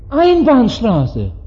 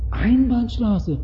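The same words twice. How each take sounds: First: Policeman. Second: Soft, high, drawn-out mock realisation; clueless driver. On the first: Acted. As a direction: play a policeman pointing out the offence, very slowly. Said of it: "Der Polizist stoppt ihn und fragt". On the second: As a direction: play a driver feigning innocent surprise. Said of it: "Er sagt, Ach".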